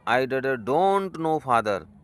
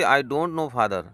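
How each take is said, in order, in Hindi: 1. यह हकलाते हुए, बीच-बीच में रुक-रुक कर कहा गया है। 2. यह बिना किसी रुकावट के सहजता से कहा गया है। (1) "थोड़ा सा रुक रुक करके हकला करके बोलती है" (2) "उसको बोलना चाहिए थी"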